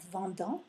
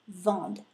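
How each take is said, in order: First: The ending is said as a nasal vowel. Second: The written ending is silent after the d. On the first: The speaker calls it wrong. "not vendant" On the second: The speaker calls it right. "I would do vend"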